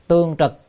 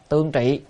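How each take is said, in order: First: The second syllable is read as trực. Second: The second syllable is read as trị. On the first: The speaker calls it right. "chữ này đọc âm trực thì hay hơn" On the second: The speaker calls it wrong. "người ta đọc trị quen rồi"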